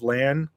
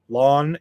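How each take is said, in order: First: The vowel sounds like the one in 'cat'. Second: The vowel sounds like the one in 'law'. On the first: This is how fans usually say it. "instead of land" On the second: This is how the show says it. "we've heard Daniel Henney say lawn"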